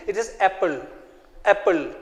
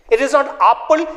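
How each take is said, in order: First: Apple with a short open a, soft; correct short a. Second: Apple said the wrong way, not short; wrong vowel. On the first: Teacher correcting the class on apple, soft and clear. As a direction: model the right apple. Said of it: "Then what is it?". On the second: Teacher showing the wrong apple to pupils. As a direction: show the mistake in apple. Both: Shown as a demonstration.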